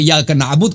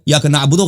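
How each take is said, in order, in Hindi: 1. आख़िरी शब्द एक सादे व्यंजन पर ख़त्म होता है। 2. आख़िरी शब्द छोटी उ की मात्रा वाले स्वर से ख़त्म होता है। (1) "अगर यहाँ पे रुक जाए ना तो ये ज़रूरी है कि इय्याका नअबुद कह दो" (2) "गलत है वक़्फ़ में"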